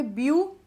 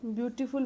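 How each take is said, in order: First: beautiful broken into three separate syllables, with pauses; split into syllables. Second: Said in the usual way. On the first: Shown as a demonstration. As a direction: say beautiful syllable by syllable, pausing after each. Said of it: "अब इसमें कितने syllable हो गए". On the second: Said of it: "अब इसमें कितने syllable".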